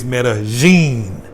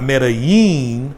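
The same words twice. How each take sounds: First: The double L sounds like a J. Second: The double L sounds like a Y. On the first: The speaker calls it right. "So the double L's make a J sound" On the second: The speaker calls it wrong. "in school they always taught us a double L. L L is like Yama"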